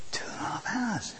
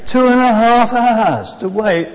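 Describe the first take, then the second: First: Whispered in disbelief; hushed disbelief. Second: Loud, drawn-out complaint; dismayed exclamation. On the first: Preacher relives the wait at Victoria, whispered disbelief. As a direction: drop to a whisper, aghast at the wait. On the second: Preacher tells congregation about missing the coach, loud dismay. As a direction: exclaim slowly at the long wait. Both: Retold or imitated.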